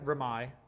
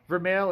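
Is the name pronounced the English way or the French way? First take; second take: French; English. First: The name is pronounced the French way. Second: The name is pronounced the English way. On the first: "if that's how the French is, like Versailles" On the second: "is actually the English pronunciation"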